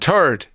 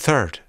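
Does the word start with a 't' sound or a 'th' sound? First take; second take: t sound; th sound. First: The word starts with a plain t sound. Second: The word starts with a th sound.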